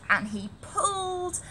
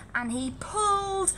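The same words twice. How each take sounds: The two takes are said the same way.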